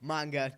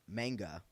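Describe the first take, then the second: First: The word is said with a Japanese pronunciation. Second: The word is said with an American pronunciation. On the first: "I gotta say this the Japanese way" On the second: "I just think it's American"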